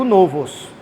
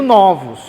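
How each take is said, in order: First: The stressed vowel matches the singular's. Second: The stressed vowel differs from the singular's. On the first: The speaker calls it wrong. "eu não digo novos" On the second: The speaker calls it right. "eu digo novos"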